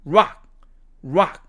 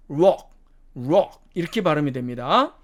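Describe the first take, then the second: First: "rock" with an open ah, like "rahk"; American pronunciation. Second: "rock" with a rounded o; British pronunciation. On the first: Teacher modelling the third word, American pronunciation. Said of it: "미국식으로 발음하면". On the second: Teacher contrasting the third word, British pronunciation. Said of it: "영국식으로 발음하면". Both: Shown as a demonstration.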